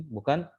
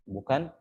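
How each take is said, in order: No difference in how they are said.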